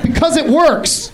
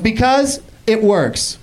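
First: The phrase is said smoothly without a pause. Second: There is an odd pause inside the phrase. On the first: The speaker calls it right. "Own it" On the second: The speaker calls it wrong. "watch how she takes pauses in the dumbest places in her sentences"

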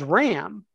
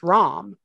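First: The vowel sounds like the 'a' in 'cat'. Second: The vowel sounds like the 'o' in 'hot'. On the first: The speaker calls it wrong. "referred to Mr. Bergman as Ram" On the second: The speaker calls it right. "when in reality it's Rom"

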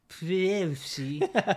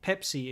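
First: The word is pronounced in a distorted way. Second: The word is pronounced in the usual way. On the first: The speaker calls it wrong. "if everyone's just always this Pepsi, you're like, you don't know what you're talking about" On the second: The speaker calls it right. "instead of saying this Pepsi"

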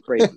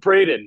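First: The name is mumbled quietly and unclearly. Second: The name is said loudly and forcefully. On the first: The speaker feels awkward saying the name. "oftentimes I'll mumble my name" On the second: The speaker is correcting a misheard name. "I feel like I get overly aggressive"

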